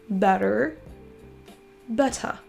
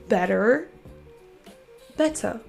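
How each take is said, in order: Both takes have the same delivery.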